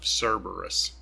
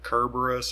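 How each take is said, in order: First: The name is said the familiar English way. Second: The name is said the original Greek way. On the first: This is the familiar modern name. "I grew up with it being called Cerberus" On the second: This is the original Greek name. "I think perhaps the original Greek was Kerberos"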